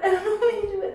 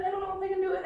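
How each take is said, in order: First: High, louder wail of dread; loud panicked wail. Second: High whine breaking into laugh-crying; half sob, half laugh, losing nerve; laugh-crying panic. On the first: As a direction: wail it out at full volume. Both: Real, not acted. Panicking before pulling strip.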